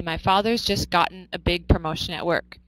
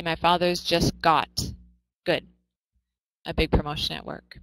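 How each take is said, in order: First: The sentence read evenly with "gotten" in it; American version. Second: The sentence read evenly with "got" instead of "gotten"; British version. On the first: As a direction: model the American wording plainly. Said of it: "in American English, we would say". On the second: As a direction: model the British wording plainly. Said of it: "So in British English, they would say". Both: Shown as a demonstration.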